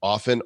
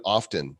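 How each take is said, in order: First: Often said OFF-en, silent t; silent-t pronunciation. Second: Often said OFF-ten, t sounded; sounded-t pronunciation. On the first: Example of differing pronunciations, often as OFF-en. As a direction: say often without the t. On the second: Example of differing pronunciations, often as OFF-ten. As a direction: say often with a clear t. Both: Shown as a demonstration. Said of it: "everybody pronounces the terms different".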